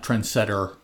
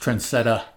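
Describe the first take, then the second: First: The name ends with an r-colored 'er' sound. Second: The name ends with an open 'ah' sound. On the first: The speaker calls it wrong. "It's not Trendsetter" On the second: The speaker calls it right. "It's Trendsetta"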